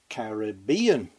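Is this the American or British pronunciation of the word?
British. It is said with the British pronunciation. "Back in Airstrip 1, we used to say"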